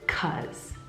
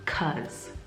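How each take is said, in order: First: The word is shortened to 'cuz'. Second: The same.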